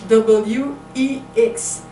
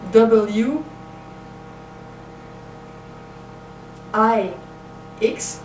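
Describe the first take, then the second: First: The middle letter sounds like 'ee'. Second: The middle letter sounds like 'eye'. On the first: The speaker calls it wrong. "because E is the pronunciation in French of this letter" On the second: The speaker calls it right. "in English is I"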